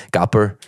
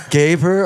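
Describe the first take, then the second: First: Put-on the name in a German accent; German-accented "Gapper", short first vowel. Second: Said in the usual way. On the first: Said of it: "like, a German accent". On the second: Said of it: "So I said it in, like, a German accent".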